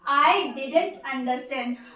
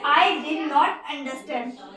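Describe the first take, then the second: First: Did not is contracted into one syllable pair. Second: Did and not are said as separate words.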